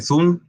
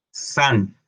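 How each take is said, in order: First: "sun" said as "soon", with a Spanish u; Spanish misreading. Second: "sun" with a short uh, between a and o; English "sun" with a short open vowel; correct English vowel. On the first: Retold or imitated. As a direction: read the u of "sun" as oo. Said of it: "hay gente que dice Zoom". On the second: Shown as a demonstration. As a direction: say "sun" as "san", neither u nor o. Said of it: "no es una U, ni tampoco es una O".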